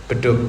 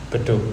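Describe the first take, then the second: Both takes have the same delivery.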